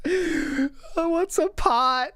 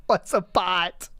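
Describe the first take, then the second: First: Higher, slow bewildered 'pot'; mock bewildered. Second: Said in the usual way. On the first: Mocking the streamer's confusion, higher slow puzzled voice. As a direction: stretch 'what's a pot' like it's alien.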